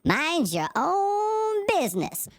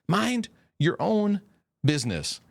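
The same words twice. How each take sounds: First: It is said in a church lady voice. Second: It is said in his normal voice.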